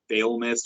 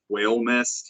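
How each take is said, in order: First: The word begins with a V sound. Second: The word begins with a W sound. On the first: "I'm not sure if it's fail mist" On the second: "or if it's whale mist"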